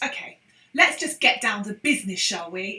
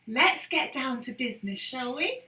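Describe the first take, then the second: First: It sounds annoyed and unhappy. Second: It sounds polite and friendly.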